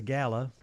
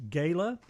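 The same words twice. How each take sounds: First: "gala" with a short A, GAL-uh; first syllable of "gala" like the name Al. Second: "gala" with a long A, GAY-luh. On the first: Co-host trying the other pronunciation, gala said GAL-uh. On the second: Co-host unsure of the word, gala said GAY-luh. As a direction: say "gala" to rhyme with "sailor". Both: Shown as a demonstration. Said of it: "how do you pronounce it".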